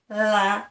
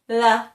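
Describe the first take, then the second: First: The tongue is back, so it sounds like ra. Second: The tongue is forward, giving a clear l sound. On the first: The speaker calls it wrong. "if it's at the back, ... It still sounds like a ra" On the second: The speaker calls it right. "even if your tongue is outside your teeth"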